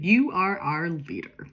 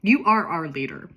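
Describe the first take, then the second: First: "You are our leader" slow and spelled out, each word weighted; very explicit. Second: Said in the usual way. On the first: Shown as a demonstration. A friend slowly and very explicitly telling Sophie "You are our leader". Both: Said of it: "needs to be very explicit".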